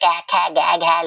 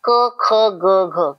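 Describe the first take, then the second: First: Each consonant ends in an 'ai' or 'e' vowel. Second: Each consonant ends in a short 'a' vowel. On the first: The speaker calls it wrong. "नहीं वो गलत है।" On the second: The speaker calls it right. "कौन सी sound होती है?"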